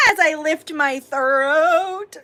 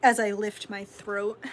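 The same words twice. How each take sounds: First: Slow, higher and louder, stretching the words; louder drawn-out repeat. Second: Said in the usual way. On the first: Pretend. Streamer repeating herself to viewers, louder and drawn out. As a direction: belt the line out slowly.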